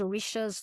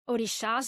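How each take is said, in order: First: It is said with an English pronunciation. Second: It is said with a Portuguese pronunciation. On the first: "here in English pronunciation" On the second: "in Portuguese"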